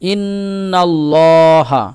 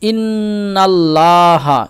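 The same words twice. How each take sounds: First: The L is heavy and full. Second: The L is light and thin. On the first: The speaker calls it right. "কি পড়তে হবে" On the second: The speaker calls it wrong. "এরকম পড়বো না, এটা ভুল"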